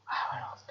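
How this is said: It is said softly on one low pitch.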